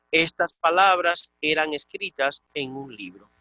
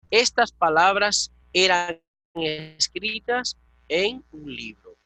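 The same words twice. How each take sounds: First: Said in the usual way. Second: Slow, deliberate, every word weighed; slow model translation. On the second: Shown as a demonstration. Teacher modelling the translation for a Greek student, slow and deliberate. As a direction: spell out the translation slowly for the student. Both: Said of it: "Sencillamente así".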